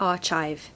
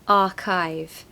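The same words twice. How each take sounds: First: The middle consonant is a ch sound. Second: The middle consonant is a k sound. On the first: The speaker calls it wrong. "It looks like archive" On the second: The speaker calls it right. "but it's a silent H, so it's just going to be archive"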